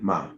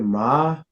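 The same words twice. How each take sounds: First: The syllable is light, with no pitch contour. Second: The pitch starts low and rises. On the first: "Just empty" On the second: "your low rising tone"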